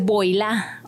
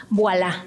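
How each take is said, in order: First: Put-on VOILÀ read as spelled, "boy-LA"; pronunciación incorrecta. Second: VOILÀ a la francesa, como «buá-lá»; pronunciación francesa. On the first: («voilà» mal dicho, leído «boilá») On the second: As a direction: say VOILÀ the French way, "bwa-LA". («voilà» con pronunciación francesa) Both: Shown as a demonstration. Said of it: "No dices voilà".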